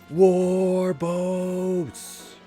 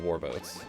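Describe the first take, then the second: First: The word is said with strong emotion. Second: The word is said plainly, without emotion. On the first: The speaker calls it right. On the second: The speaker calls it wrong.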